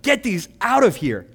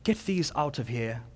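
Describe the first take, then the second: First: It is said loudly and forcefully, like a shout. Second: It is said softly in a genteel British accent. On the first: It is an angry, urgent command. The speaker calls it right. "But listen, this is exclamation point" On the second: It sounds like a polite, mild request. The speaker calls it wrong. "we tend to read them in the flowery English vernacular... It's my horrible British accent"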